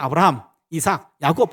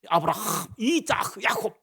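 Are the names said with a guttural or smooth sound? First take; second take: smooth; guttural. First: The names are said softly without throat sounds. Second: The names are said with harsh throat sounds. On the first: "우린 부드럽게 넘어가잖아요" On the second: "요 랍비들 발음하는 거 보면 ... 이렇게 해요"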